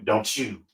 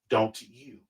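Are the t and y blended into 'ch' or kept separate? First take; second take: blended; separate. First: The t and y blend into a 'ch' sound. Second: The t and y are pronounced separately. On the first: The speaker calls it wrong. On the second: The speaker calls it right.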